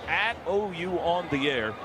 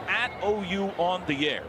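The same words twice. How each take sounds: The two takes are said the same way.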